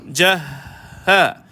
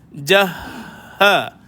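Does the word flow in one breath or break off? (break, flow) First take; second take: flow; flow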